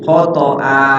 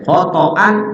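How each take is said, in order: First: The word ends with a lengthened vowel. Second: The word ends with an n sound. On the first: The reciter stops at the end of the phrase. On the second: The reciter reads on without stopping.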